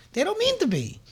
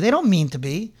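First: "They don't mean to be" much higher and softer; high sympathetic echo. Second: Said in the usual way. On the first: Real, not acted. Preacher echoes his excuse for the phonies, much higher and softer.

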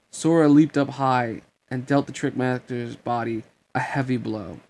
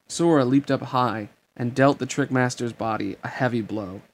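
Both takes have the same delivery.

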